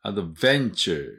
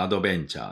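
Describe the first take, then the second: First: "アドベンチャー" as English "adventure" with "ベン" stressed; "アドベンチャー" English-style, accent on the second syllable; stress on VEN. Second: "アドベンチャー" evenly and quickly, katakana-style; "アドベンチャー" in even Japanese beats; Japanese loanword pronunciation. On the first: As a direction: punch the "ベン" in "アドベンチャー". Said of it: "ベンのとこにアクセントあります". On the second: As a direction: say "アドベンチャー" as in Japanese, with a b and no stressed syllable. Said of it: "日本語でも". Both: Shown as a demonstration.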